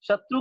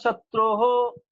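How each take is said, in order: First: The end of the word is said short. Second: The end of the word is drawn out longer. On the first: The speaker calls it right. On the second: The speaker calls it wrong.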